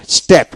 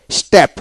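No difference in how they are said.

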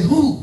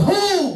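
First: Raised-pitch "Who?"; say it to someone. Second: Very high, held "Who?"; shout. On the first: Preacher prompts congregation to tell another neighbor, raised call. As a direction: call "Who?" higher, without full shouting. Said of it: "Look at somebody else and say". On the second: Preacher leads congregation shouting up to the Lord, high shout. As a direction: cry out "Who?" far up in pitch. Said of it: "Now lift your hands up to the Lord and shout". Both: Shown as a demonstration.

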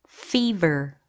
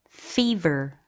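Both takes have the same delivery.

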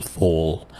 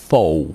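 First: Said in the usual way. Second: Cockney Fall ending in a w sound; vocalized L. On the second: Shown as a demonstration. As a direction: Fall said as faw, L turned to w. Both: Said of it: "ما يقول fall".

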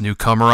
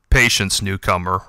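First: Said in the usual way. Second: Snide. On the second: A narrator's reading. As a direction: say newcomer with a sneer. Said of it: "replied the voice snidely".

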